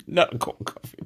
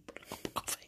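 First: Said in the usual way. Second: Breathy whispered innuendo; suggestive whisper. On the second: Shown as a demonstration. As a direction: whisper it with a wink.

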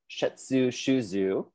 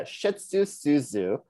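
First: "Shetsu Shuzu" slowly, with sh starting both words; careful pronunciation. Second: "Shetsu Suzu" said slowly, with s replacing the second sh; botched pronunciation. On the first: Host retrying the company name after botching it, careful pronunciation. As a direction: sound out "Shetsu Shuzu" slowly, rising at the end. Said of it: "Listen to Nick's pronunciation on that". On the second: Host copying the co-host's Japanese company name, botched pronunciation. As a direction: stumble slowly through "Shetsu Suzu", plain s in "Suzu". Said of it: "I said that all fucked up".

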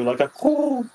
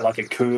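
First: Bird coo. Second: Said in the usual way. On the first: Acted. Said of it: "And it lets out, like, a coo". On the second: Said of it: "And it lets out".

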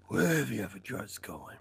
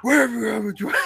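First: Low, soft scary voice; Batman. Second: Loud, higher mock interrogation; Batman. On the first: Retold or imitated. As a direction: lower and quieter, for menace. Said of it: "That's scary". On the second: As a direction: burst out louder, pretending to grab someone. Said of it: "And then he grabs him".

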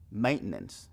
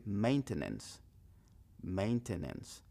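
First: "Maintenance" quick as menens; fast "Maintenance", menens; quick version. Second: "maintenance" slow, mein-te-nens; careful full "Maintenance"; slow full version. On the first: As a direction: clip "Maintenance" to two syllables. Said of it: "Eso se escucha un poco rápido". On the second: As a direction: spell out every syllable of "maintenance". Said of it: "O puede decir". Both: Shown as a demonstration.

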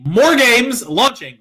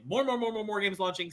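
First: Loud, slow show announcement; announcer hype. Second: Soft muttered repeat; quiet. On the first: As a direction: drag it out like a hype man. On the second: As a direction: drop it to a murmur. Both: Pretend. Hyped announcement then quiet repeat.

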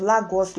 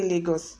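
First: "Lagos" as LAH-goss; Google pronunciation. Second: "Lagos" as LAY-goss; Nigerian Lagos. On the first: Recalling Google's version, "Lagos" as LAH-goss. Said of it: "I don't know Google pronunciation". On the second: Explaining the Nigerian way, "Lagos" as LAY-goss. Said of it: "we say Lagos". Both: Shown as a demonstration.

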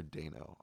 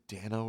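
First: First syllable of Dano rhymes with "day"; Dano with long A. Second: First syllable of Dano rhymes with "can"; Dano with short A. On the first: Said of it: "I'm gonna go with Dano". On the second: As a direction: say Dano as DAN-oh, A as in "cat". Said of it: "is it Dano or Dano? I never know". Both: Shown as a demonstration.

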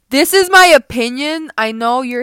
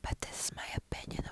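First: Louder, hammering the word my; loud declaration. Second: Soft unvoiced whisper, word my leaned on. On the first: Real, not acted. To her listeners, a loud shout of her opinion. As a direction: shout it so every ear rings. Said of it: "I'm sorry if I'm hurting your ears". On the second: To listeners, so [name] won't hear, a whisper. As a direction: whisper it like a secret. Hiding from a lawsuit.

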